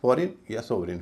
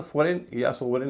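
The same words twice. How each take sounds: First: फॉरेन या सोवरेन both ending in light "-rin"; reduced pronunciation. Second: फॉरेन या सोवरेन both ending in full "-rain"; wrong pronunciation. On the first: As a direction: shorten the last vowel of फॉरेन या सोवरेन to "i". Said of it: "एन की बजाय इन हो जाता है". (फॉरेन या सोवरेन, आख़िर में हल्का "रिन") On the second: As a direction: give फॉरेन या सोवरेन unreduced last vowels. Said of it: "इसका उच्चारण फॉरेन या सोवरेन नहीं होता". (फॉरेन या सोवरेन, आख़िर में पूरा "रेन") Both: Shown as a demonstration.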